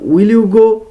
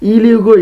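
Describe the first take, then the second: First: The first word is a full 'will'. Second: The first word is clipped to 'ill'. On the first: "এই উইলটা সে উইল বলবে না" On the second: "সে ইল বলবে"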